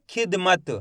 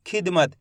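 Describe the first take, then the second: First: खिदमत split into खिद and मत; sounded out. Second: Said in the usual way. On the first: Shown as a demonstration. Teacher shows pupils how the word sounds, sounded out. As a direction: say खिदमत in two careful beats, releasing the final त. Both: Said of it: "कैसे हो रहा है?".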